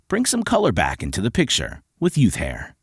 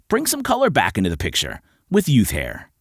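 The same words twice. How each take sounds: First: It is said in a rugged, gruff manner. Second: It is said in a relaxed, conversational manner.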